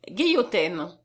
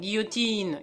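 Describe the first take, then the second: First: The last syllable has an 'ain' vowel. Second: The last syllable has an 'een' vowel.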